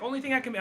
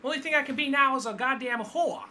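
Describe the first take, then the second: First: Much higher mock Brooklyn accent, quoting Harley. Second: Put-on much higher Brooklyn accent, full quote; hammed-up Brooklyn twang, pitched way up. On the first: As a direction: toss it off in a high Brooklyn accent. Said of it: "in the Brooklyn accent". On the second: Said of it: "I like the way she even said it in the Brooklyn accent".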